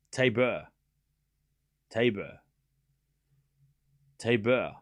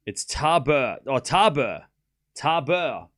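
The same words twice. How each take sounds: First: Tabor said lower, TAY-buh, testing the sound; trying out Tabor. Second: Tabor said TAH-ber with an open ah; settled pronunciation Tabor. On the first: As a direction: say Tabor slowly as if checking it. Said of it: "Am I saying Tabor or is it Tabor?". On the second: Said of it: "I'm gonna say Tabor". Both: Shown as a demonstration.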